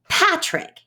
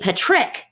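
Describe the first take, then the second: First: The stress is on the first syllable. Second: The stress is on the second syllable. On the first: The speaker calls it right. "most names in English stress the first syllable" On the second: The speaker calls it wrong. "if we put the stress on the second syllable"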